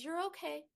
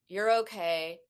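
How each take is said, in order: First: It is said in a warm, caring tone. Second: It is said in a flat, dismissive tone.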